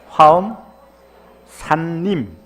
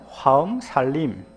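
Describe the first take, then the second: First: It is said slowly with each sound clearly pronounced. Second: It is said fast with the sounds run together. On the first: "발음을 발음을 똑띠 단디 하십시오" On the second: "빨리 하면"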